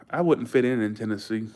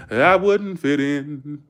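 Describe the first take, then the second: First: Said in the usual way. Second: Slow, louder, stretched-out Southern twang; playful Southern drawl. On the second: Pretend. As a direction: draw each word out in a mock Southern drawl. Drawled repeat of same words.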